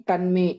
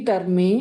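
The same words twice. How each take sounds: The two takes are said the same way.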